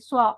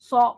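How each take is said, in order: First: A rounded w glide follows the s sound. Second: No w glide follows the s sound. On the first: The speaker calls it wrong. "वाव की आवाज नहीं आएगी, स्वा, ऐसे आवाज नहीं आएगी" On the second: The speaker calls it right. "ये आवाज होगी सौ। सौ, होंठ गोल नहीं होंगे।"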